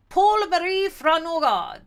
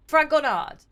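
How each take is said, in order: First: Fragonard said the French way, no final d; reaching for a French pronunciation of "Fragonard"; French-style name. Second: Said in the usual way. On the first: Shown as a demonstration. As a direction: try "Paul Marie Fragonard" with a French sound, slowly. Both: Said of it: "Was I doing a French accent for this guy?".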